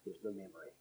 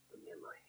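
First: Said in the usual way. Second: Very soft, low whisper; hushed echo. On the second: Real, not acted. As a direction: let it sink to a whisper. Preacher echoes the phrase for effect.

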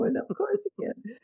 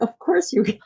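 First: Much softer, higher, voice breaking; tearful repeat. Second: Reassuring reply. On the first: Real, not acted. Repeating her answer to the mother while crying. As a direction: whisper it through tears. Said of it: "because I'm crying right now". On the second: Retold or imitated. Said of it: "And I'm like".

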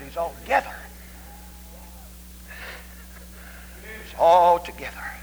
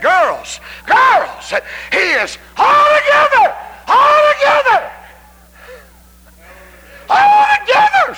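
First: Said in the usual way. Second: Very high, loud drawn-out shout; ecstatic shout. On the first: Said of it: "She said". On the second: Retold or imitated. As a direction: cry altogether out in rapture. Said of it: "she just said".

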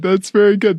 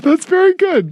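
First: Said in the usual way. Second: Excited. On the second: Acted. Repeated with a different take.

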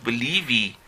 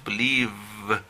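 First: "believe" ending in an extra ee, believee; wrong final vowel. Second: "believe" closing on a long buzzing v; ends on V. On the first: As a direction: add a spoken "i" after the v of "believe". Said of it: "el último sonido no es I". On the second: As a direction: hold the final v of "believe", no vowel after. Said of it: "es la V". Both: Shown as a demonstration.

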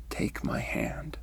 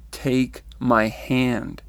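First: Said in the usual way. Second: Slow, spaced-out, firm insistence; firm command. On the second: Retold or imitated. Being holds out his hand to her, firmly. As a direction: say it firmly, each word drawn out.

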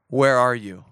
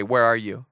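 First: Low, searching call of God. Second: Low playful "Where are you?" to a neighbour; mock divine call. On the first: Acted. God calls to the hiding man, low and searching. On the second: Shown as a demonstration. Congregation turns to a neighbour, low playful call. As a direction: call it low like God in the garden. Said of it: "Look at your neighbor right now and say".

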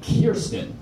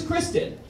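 First: Put-on slowly lowered "Kirsten", KUR-sten, the drunk alter ego. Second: "Kristen" said with the R right after the K, KRIS-ten; "Kristen" as KRIS-ten, the sweet one's name. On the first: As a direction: draw out "Kirsten" as KUR-sten with a knowing laugh. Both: Shown as a demonstration. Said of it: "married to another woman as well, named Kirsten".

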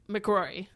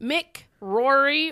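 First: "McRory" run together as one word; one surname. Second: "Mick Rory" as two words; two separate names. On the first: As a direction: join "McRory" into a single name. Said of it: "or his name McRory". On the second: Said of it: "Is his name". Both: Shown as a demonstration.

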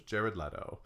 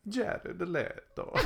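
First: Said in the usual way. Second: Slow, high, hammed-up Italian accent; singsong mock Italian accent. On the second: Name repeated in put-on accent.

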